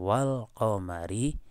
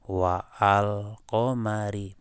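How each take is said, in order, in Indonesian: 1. Wa langsung menyambung ke al tanpa hamzah. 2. Ada hamzah yang memisahkan wa dan al. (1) "hamzanya gugur. Wal langsung" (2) "bukan gini"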